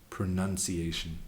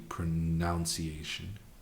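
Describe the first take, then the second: First: The second syllable is said as 'nun'. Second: The second syllable is said as 'noun'. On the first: The speaker calls it wrong. "I'm not I'm not okay with the un" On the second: The speaker calls it right. "every bone in my being feels like it should be pronunciation"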